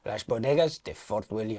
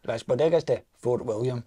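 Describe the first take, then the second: First: Spanish accent. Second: Scottish accent. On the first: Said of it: "You can do that in a Spanish ac-, accent". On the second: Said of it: "You can do the last bit in a, in a Scottish accent". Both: Shown as a demonstration.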